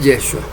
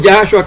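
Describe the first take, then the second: First: Yeshua said as "YEH-shua"; Yeshua with first-syllable E. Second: Yahshua said as "YAH-shua"; Yahshua with first-syllable A. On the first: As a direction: open Yeshua on an E vowel. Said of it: "que es Yeshua". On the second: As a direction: open Yahshua on an A vowel. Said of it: "No que es Yahshua". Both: Shown as a demonstration.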